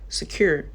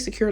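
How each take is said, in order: First: The word is said in a Southern accent. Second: The word is said in a standard accent. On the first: "like secure? I'm not even from the South" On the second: "Why they say secure"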